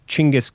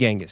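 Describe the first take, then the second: First: The name begins with a 'ch' sound. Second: The name begins with a 'j' sound. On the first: This is the form some people say is correct. "I've seen people say it's supposed to be pronounced Chinggis Khan" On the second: This is the form the speaker chooses to use. "I'm saying Genghis"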